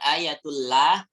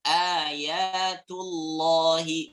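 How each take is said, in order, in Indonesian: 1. 'l' diucapkan tipis dan ringan. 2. 'l' diucapkan tebal dan penuh. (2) "ini yang dhammah, tebal"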